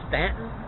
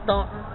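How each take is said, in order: First: The first vowel sounds like the 'a' in 'cat'. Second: The first vowel sounds like the 'aw' in 'saw'. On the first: This is how the locals say the name. The speaker calls it right. "Be sure to call it Stanton" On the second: This follows the spelling, not local usage. The speaker calls it wrong. "It is not Staunton"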